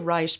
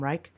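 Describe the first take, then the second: First: The name is said in its owner's original way. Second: The name is said in the usual common way. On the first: This is how the man himself said his name. "that is how he pronounced his name" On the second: This is how most people say the name. "Most people say Wilhelm Reich"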